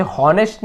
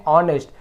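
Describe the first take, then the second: First: "हॉनेस्ट" with the H sounded; mispronounced "honest". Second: "ऑनेस्ट" starting straight on the O vowel; silent H. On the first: Teacher showing students what not to read, "हॉनेस्ट" with an audible H. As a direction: voice the initial H in "हॉनेस्ट", as a warning. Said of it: "आप इसे हॉनेस्ट नहीं पढ़ेंगे". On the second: Teacher correcting students' reading of honest, "ऑनेस्ट" with silent H. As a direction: drop the H in "ऑनेस्ट". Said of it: "इसे हम पढ़ते हैं ऑनेस्ट". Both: Shown as a demonstration.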